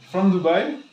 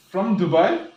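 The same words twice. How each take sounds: The two takes are said the same way.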